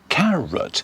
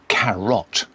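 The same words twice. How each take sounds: First: The second syllable has a weak vowel. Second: The second syllable has a full vowel. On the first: The speaker calls it right. "Stress on the first syllable, the second one is weak" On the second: The speaker calls it wrong. "We don't say carrot"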